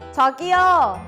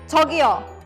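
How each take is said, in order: First: The word is said slowly and drawn out. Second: The word is said quickly and abruptly. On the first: It comes across as polite. The speaker calls it right. "it is better to say it a bit more drawn out" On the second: It comes across as a bit rude. The speaker calls it wrong. "Saying it very quickly and suddenly would be a bit rude"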